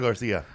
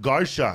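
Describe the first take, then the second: First: The name is said with a Spanish pronunciation. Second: The name is said with an English pronunciation. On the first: The name keeps its Mexican origin. "not Garcia" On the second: The speaker hides the Mexican origin of the name. "My last name is Garcia"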